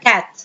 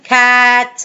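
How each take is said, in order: First: كات with a short, unstretched a; short vowel. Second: كات with a long, stretched a; wrong long vowel. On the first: Teacher explains the closed syllable, كات with a short vowel. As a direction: keep the vowel in كات brief. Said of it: "هنا مش هينفع يبقى فويس". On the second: Teacher says this is not allowed, كات with a long vowel. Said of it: "ما ينفعش ان انا اقول". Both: Shown as a demonstration.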